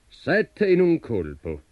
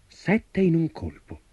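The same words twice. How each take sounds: First: Slow, high-pitched giant spelling out words; giant reading aloud. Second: High, drawn-out marvel at the feat; amazed exclamation. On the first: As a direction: read it out slowly, as a sceptical giant. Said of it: "lesse il gigante". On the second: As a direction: exclaim it slowly, pitched up. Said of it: "esclamò il giovane". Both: A narrator's reading.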